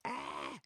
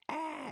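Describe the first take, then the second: First: A low, mock "Ah!" startled gasp; mock startled cry. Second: Much higher mock "Ah!" squeal; mock alarmed shriek. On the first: Opponent caught by the check, a low mock gasp. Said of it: "he's like". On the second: Opponent's rook trapped, a high mock shriek. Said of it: "in another color".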